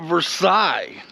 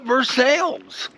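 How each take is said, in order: First: It uses the outsiders' pronunciation of the name. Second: It uses the locals' pronunciation of the name. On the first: This is how non-residents say it. "If you're not a local, you're going to call it Versailles" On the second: This is how residents say it. "but we call it Versailles"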